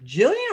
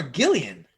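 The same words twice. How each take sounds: First: "Jillian" said with a J sound; soft-G pronunciation. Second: "Gillian" said with a hard G as in "go"; hard-G pronunciation. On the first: Cohost asking how her name is said, "Jillian" with soft G. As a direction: start "Jillian" like "jill", pitch swooping up. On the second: Cohost offering the other reading, "Gillian" with hard G. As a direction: start "Gillian" like "gill", pitch swooping up. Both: Shown as a demonstration. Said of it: "Jillian with a G".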